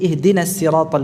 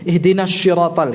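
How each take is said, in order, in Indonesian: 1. Kata kedua diawali bunyi 's'. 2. Kata kedua diawali bunyi 'sh'. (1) "hanya mengucapkan dengan sin" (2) "berubah menjadi shin"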